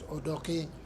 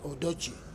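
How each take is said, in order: First: The last consonant is a k sound. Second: The last consonant is a ch sound. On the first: The speaker calls it right. "it is" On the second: The speaker calls it wrong. "here they wrongly pronounce it"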